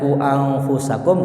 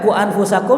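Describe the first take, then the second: First: It is recited with careful, drawn-out sounds. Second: It is recited plainly, without drawn-out sounds. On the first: "kalau kita misal baca ku anfusakum boleh" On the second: "kita nggak baca ku anfusakum juga nggak masalah"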